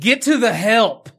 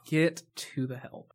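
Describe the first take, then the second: First: Loud, high, drawn-out movie quote; mock dramatic call. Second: Drawn-out, understated movie quote; slow deliberate quote. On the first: Quoting the movie's best line, a loud mock call. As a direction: belt out the line slowly and high. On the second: Retold or imitated. Repeating the movie's best line, slowly and understated. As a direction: stretch each word without raising the voice.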